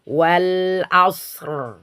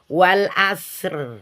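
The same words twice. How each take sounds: First: The r is pronounced thick and heavy. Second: The r is pronounced thin and light. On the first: The speaker calls it right. "tapi wal asr. Tebal" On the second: The speaker calls it wrong. "bukan wal asr"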